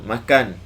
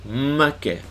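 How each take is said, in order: First: Said in the usual way. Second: Kelantan accent Makan with a held, doubled initial m. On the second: Shown as a demonstration. Teacher contrasting Kelantan makan for students, Kelantan accent. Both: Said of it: "Jadi makan, makan. makna berbeza".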